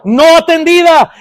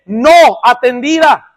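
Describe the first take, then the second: First: "No atendida" proclaimed higher and louder, stress on "No"; loud emphatic answer. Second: "no atendida" dicho lento, cada sílaba marcada; slow emphasis. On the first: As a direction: call out "No atendida" like the answer to a congregation's question. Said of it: "¿La acumulación qué?". ("No atendida" proclamado más alto y fuerte, acento en "No") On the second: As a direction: dictate "no atendida" slowly so they can write it. ("no atendida" lento y marcado, para que lo escriban) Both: Shown as a demonstration.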